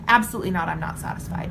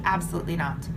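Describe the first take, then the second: First: Emphatic answer. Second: Said in the usual way. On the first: Shown as a demonstration. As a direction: punch "Absolutely" out with force, then settle on "I'm not satisfied". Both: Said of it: "Your answer every single time should be".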